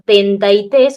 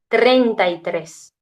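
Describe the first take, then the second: First: The R sounds are dropped and the words slurred. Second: The R sounds are clear and the words articulated. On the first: The voice is heard unarticulated through the chest. "desarticulada, sin la R" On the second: Sound is conducted better, so the voice is heard articulated. "la voz articulada"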